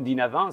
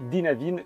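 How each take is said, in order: First: The name is pronounced in a French way. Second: The name is pronounced in a non-French way.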